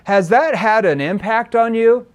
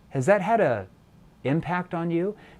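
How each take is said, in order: First: The question is asked quickly and flatly. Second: The question is asked slowly and softly. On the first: The asker seems to be reading a script. The speaker calls it wrong. "You can't sound like a scripted robot" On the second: The asker seems to care about the answer. The speaker calls it right. "Notice you slowed down your tone"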